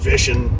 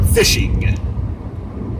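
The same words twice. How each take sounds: First: The word ends without the final G sound. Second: The word ends with a clear final G sound. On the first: The speaker calls it wrong. "I notice I leave that G off of everything" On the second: The speaker calls it right. "try to start adding that G in there"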